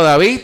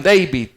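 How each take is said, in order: First: "David" said the American English way, as Day-vid; American English name. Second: Said in the usual way. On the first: Shown as a demonstration. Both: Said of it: "así a lo gringo".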